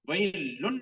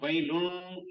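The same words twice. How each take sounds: First: The n sound is pronounced clearly without nasalization. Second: The n sound is nasalized through the nose. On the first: The speaker calls it wrong. "वही लुन नहीं कहना। वही लुन में क्या है, नून का इजहार हो गया।" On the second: The speaker calls it right. "इसको अपने नाक से आवाज निकालनी, गुन्ना करना है इसको।"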